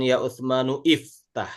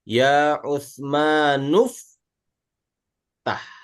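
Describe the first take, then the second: First: The 'i' is pronounced as a separate syllable. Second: The 'i' is dropped, linking straight into 'ftah'. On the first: The speaker calls it wrong. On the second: The speaker calls it right. "Hamzahnya nggak dibaca karena ada nun"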